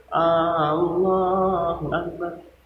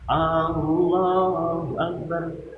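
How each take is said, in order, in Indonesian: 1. Vokal pembuka 'A' dibaca panjang. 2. Vokal pembuka 'A' dibaca panjang.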